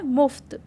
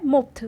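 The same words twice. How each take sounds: First: मुफ्त correct nukta pronunciation "muft". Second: मुफ्त said as "mupt", with a plain p sound; मुफ्त pronounced without the nukta; wrong way, without nukta. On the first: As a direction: give मुफ्त the nukta f, a breathy f through the teeth. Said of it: "ये होता है मुफ्त". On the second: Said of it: "लेकिन मुफ्त तो कुछ नहीं होता". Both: Shown as a demonstration.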